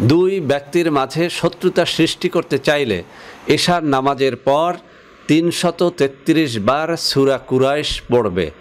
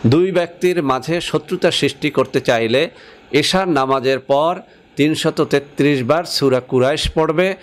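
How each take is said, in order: No difference in how they are said.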